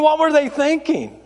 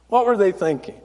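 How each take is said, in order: First: High-pitched disbelief; incredulous comic complaint. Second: Understated incredulity; subdued disbelief. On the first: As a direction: ask it higher, baffled. Mock disbelief, said twice. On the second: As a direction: lower repeat of the baffled question. Same question, dropped lower. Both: Real, not acted.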